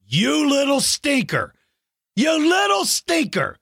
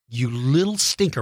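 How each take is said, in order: First: High, playful scolding; mock outrage. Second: Said in the usual way. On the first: Real, not acted. Mock outrage at being eaten.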